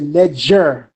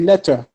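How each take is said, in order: First: The middle consonant is a g sound. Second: The middle consonant is a t sound. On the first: This is the Old Kingdom form. "if you're looking at the Old Kingdom, it'll say Neger" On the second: This is the New Kingdom form. "if you're looking at the New Kingdom, you'll say Neter"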